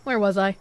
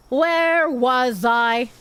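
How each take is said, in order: First: Said in the usual way. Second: Slow, dazed "Where was I?"; slow drawn-out repeat. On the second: Shown as a demonstration. Streamer loses her place, asks chat slowly. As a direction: stretch every word out slowly. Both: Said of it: "repeated slowly".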